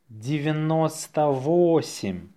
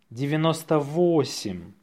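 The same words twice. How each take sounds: First: Slow, drawn-out dictation. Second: Natural-speed dictation; faster. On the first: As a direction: say it slowly for learners. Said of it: "say it slowly". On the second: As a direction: say it briskly, in one go. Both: Shown as a demonstration.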